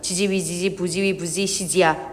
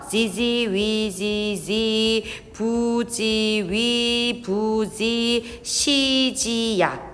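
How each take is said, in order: First: The phrase is read quickly, running together. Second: The phrase is read at a normal pace.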